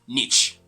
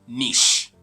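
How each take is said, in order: First: The word ends with a 'ch' sound. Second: The word ends without a 'ch' sound. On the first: The speaker calls it wrong. "people say niche because they're actually tripped by the C H sound at the end" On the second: The speaker calls it right. "but rather niche"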